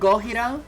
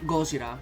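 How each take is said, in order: First: The name is said with Spanish pronunciation. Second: The name is said with Japanese pronunciation. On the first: "technically in Spanish, you would pronounce it" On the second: "the Japanese pronunciation"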